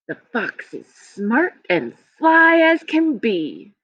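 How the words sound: It is read smoothly, like natural talking.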